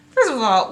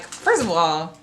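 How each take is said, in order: First: Higher and louder, mock indignant; escalating mock outrage; outraged retort, pushed harder. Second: Outraged retort. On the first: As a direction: repeat it, really hitting it this time. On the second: Retold or imitated. Readers' outraged retort begins.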